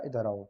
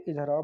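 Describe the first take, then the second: First: Gentle, affectionate call, slightly low; loving call. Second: A touch sharper and firmer; mock-irritated summons, only slightly louder; mildly annoyed call. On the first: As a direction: call someone over kindly. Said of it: "प्यार से बुला रहे हैं". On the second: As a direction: call someone over as if a little cross. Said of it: "आप उससे नाराज़ हैं". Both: Shown as a demonstration.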